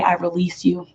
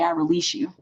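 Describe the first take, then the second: First: Said in the usual way. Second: "I release you" floated high and soft, rising on "I"; soft, higher ritual "I release you" said over the fire. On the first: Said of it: "and say". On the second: Shown as a demonstration. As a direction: lift "I release you" up high and let it go gently. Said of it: "burn it on the full moon and say".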